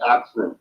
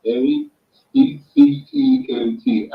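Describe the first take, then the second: First: Said in the usual way. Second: A C C E N T spelled letter by letter, slowly and higher. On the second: Shown as a demonstration. Spelling the product name out for the host, letter by letter, slowly.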